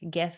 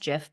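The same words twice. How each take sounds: First: The word begins with a hard G sound. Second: The word begins with a J sound. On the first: "I refuse to pronounce it that way" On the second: "I know it's GIF, ... it's like a peanut butter"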